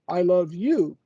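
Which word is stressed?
you. The stress is on the word you. It is you who is loved, not anyone else. "I don't love your neighbor, I don't love your wife, your dog"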